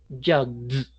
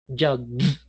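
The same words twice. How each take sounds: Both takes have the same delivery.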